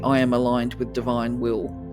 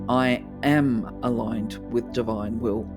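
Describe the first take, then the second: First: The words 'I am' get no special emphasis. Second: The words 'I am' are strongly emphasized. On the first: The speaker calls it wrong. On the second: The speaker calls it right.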